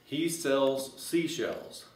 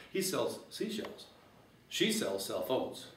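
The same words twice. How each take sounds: First: "He sells seashells" said slowly, each word spaced out; slow, deliberate first run at the tongue twister; careful tongue twister. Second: Tongue twister, quicker. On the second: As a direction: toss the twister off lightly and brightly. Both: Shown as a demonstration. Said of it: "you can say this real fast".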